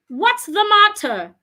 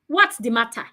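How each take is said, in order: First: The voice falls at the end. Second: The voice does not fall at the end. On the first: The speaker calls it right. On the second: The speaker calls it wrong.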